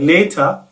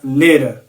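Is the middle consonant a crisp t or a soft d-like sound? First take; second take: crisp t; soft d-like. First: The middle consonant is a crisp t. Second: The middle consonant is a soft d-like tap. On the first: "aho kuvuga later" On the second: "ijwi riri hagati ya t na d"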